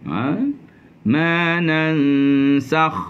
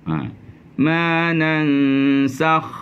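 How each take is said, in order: No difference in how they are said.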